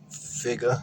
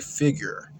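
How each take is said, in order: First: The word ends with an open 'uh' sound. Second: The word ends with an 'er' sound. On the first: "you don't put the A on any other E R word" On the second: "you say figure"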